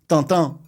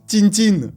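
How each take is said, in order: First: The name is said the French way. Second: The name is said the Russian way.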